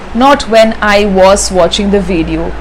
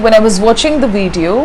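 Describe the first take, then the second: First: The word 'was' is said in its full form. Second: The word 'was' is reduced and unstressed. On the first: The speaker calls it wrong. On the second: The speaker calls it right. "when you use it in the sentence, you say"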